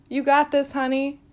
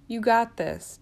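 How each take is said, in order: First: Cheering encouragement. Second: Calmer reassurance. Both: Acted. Encouraging new grad nurse.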